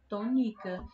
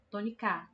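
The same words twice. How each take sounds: First: The stress is on the middle syllable. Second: The stress is on the last syllable. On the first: "Se a sílaba mais forte da palavra tônica fosse o ni" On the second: "E se fosse o K"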